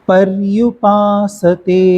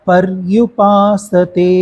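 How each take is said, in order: Both takes have the same delivery.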